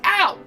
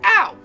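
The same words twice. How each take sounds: Both takes have the same delivery.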